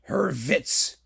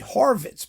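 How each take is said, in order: First: The first vowel is a 'u' sound. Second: The first vowel is an 'o' sound. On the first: "In German, it's" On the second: "but usually Horwitz, because most people ignore the fact that there's a U there and not an O"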